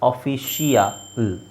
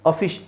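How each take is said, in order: First: The ending has an extra 'ee-ya' sound. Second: The ending is a short '-shal' sound. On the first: The speaker calls it wrong. "ಈ ಯಾ ಬರ್ತಾ ಇದೆ" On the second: The speaker calls it right. "ಅದರ ಅವಶ್ಯಕತೆ ಇಲ್ಲ"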